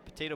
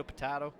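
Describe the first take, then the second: First: "Potato" with a long 'ay' in the middle; ay pronunciation. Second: "potato" with a broad 'ah' in the middle; ah pronunciation. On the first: Shrugging off the name debate, "Potato" said puh-TAY-to. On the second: Shrugging off the name debate, "potato" said puh-TAH-to. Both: Shown as a demonstration. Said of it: "Potato, potato".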